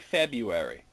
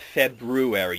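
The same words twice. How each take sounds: First: The R after the B is left out. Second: The R after the B is clearly sounded. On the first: The speaker calls it wrong. "most people say February" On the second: The speaker calls it right. "it is February"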